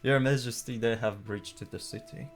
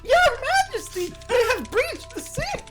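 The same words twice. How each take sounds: First: It is read in the speaker's plain voice. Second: It is read in an acted character voice.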